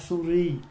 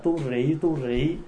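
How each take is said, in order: First: It begins with an s sound, said as suri. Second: It begins with a t sound, said as tu ri. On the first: "tiếng Phạn là suri ma ha suri" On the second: "Bây giờ mình phát âm là tu rị"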